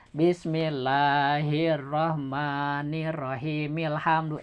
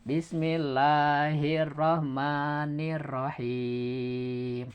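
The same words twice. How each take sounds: First: Slow soft recitation joining rahim to ilhamdu; slow chant run on without a break; connected reading. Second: Very slow, soft recitation stopping on rahim; slow Quran recitation, ending in a stop; stopped reading. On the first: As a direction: carry rahim straight into ilhamdu. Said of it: "Tapi kalau begini". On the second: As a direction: chant it slowly and stop at the end. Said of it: "Bacanya dihentikan gitu". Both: Shown as a demonstration.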